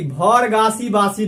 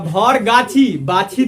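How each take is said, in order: First: The words are said with an s sound. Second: The words are said with a ch sound. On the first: The speaker calls it wrong. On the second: The speaker calls it right.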